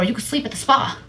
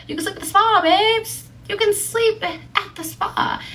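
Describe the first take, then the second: First: Said in the usual way. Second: Very high, sing-out plea; playful coaxing. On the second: Retold or imitated. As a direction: coax in a put-on high voice. Repeats retort as playful coaxing.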